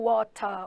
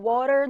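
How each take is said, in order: First: It is said in a British accent. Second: It is said in an American accent. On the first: "no britânico" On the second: "no americano"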